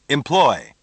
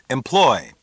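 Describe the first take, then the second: The two takes are said the same way.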